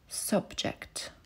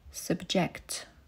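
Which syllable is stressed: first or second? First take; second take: first; second. First: The stress is on the first syllable. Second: The stress is on the second syllable. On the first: It is used as a noun. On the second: It is used as a verb.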